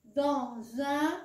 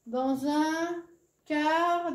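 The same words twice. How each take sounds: First: Said in the usual way. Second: "dans un car" read very slowly, each sound stretched; slow syllable reading. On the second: Shown as a demonstration.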